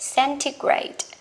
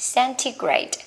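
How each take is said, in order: Both takes have the same delivery.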